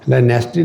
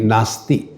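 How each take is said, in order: First: The first vowel sounds like 'eh'. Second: The first vowel sounds like 'ah'. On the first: The speaker calls it wrong. "नेस्टी नहीं" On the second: The speaker calls it right. "तुम उच्चारण ठीक करो"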